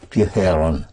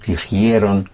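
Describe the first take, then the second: First: The second syllable has a plain 'e': je. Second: The second syllable has an 'ie' glide: jie. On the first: It is the everyday spoken form. "one started hearing and saying" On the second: It is the older form. "instead of dijeron"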